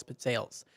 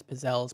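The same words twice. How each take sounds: First: "pizzelles" said as pit-SAYLS; grandma's pronunciation. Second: "pizzelles" said as puh-ZELLS; alternative pronunciation. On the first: Retold or imitated. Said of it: "She always pronounced it that way". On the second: Shown as a demonstration. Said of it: "you might pronounce it differently".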